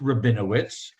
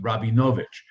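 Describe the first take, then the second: First: The name ends with a 'witz' sound. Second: The name ends with a 'vich' sound. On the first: This is how it is said in Ukraine. "re- pronounced Rabinowitz" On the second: This is how it is said in Romania. "In Romania, it was pronounced Rabinovich"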